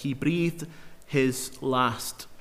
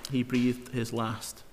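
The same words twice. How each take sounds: First: Said in the usual way. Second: Much softer and slow, letting each word land; slow hushed repeat. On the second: Shown as a demonstration. Preacher repeats the verse to let it sink in, slow and hushed. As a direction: say it again quietly, like a solemn echo. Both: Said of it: "Look at verse twenty-three again".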